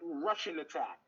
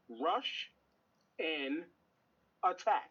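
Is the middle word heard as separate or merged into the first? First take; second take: merged; separate. First: The words run together, sounding like 'Russian'. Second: The word 'and' is said separately and clearly. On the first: This is the casual way everyone says it. "which we've all called it Russian Attack" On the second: This is what the title actually says. "if you slow your brain down and read the cover, it clearly says Rush and Attack"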